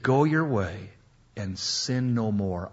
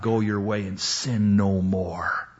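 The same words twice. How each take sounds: First: It is said in a warm, gentle tone. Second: It is said in a stern, warning tone. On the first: It is a release from guilt. The speaker calls it right. "I'm freeing you right now. You're free" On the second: It is a warning of punishment next time. The speaker calls it wrong. "It's not go your way and sin no more. I'll let you off the hook this time, lady. But next time, you're in deep trouble"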